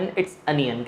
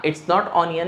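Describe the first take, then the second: First: Onion as अनियन, a little softer; correct pronunciation. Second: Onion with o as in ऑनियन; wrong pronunciation. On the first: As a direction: open a sound in onion. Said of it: "अनियन". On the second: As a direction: round o in onion. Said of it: "क्या कहा जाएगा?". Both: Shown as a demonstration.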